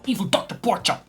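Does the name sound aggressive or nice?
aggressive. The name is said in a harsh, aggressive tone. "without a very aggressive accent"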